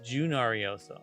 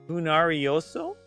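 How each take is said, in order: First: The name is said with an English pronunciation. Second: The name is said with a Latin American pronunciation. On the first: "or is it" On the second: "if it is a um, Latin American pronunciation, it would be"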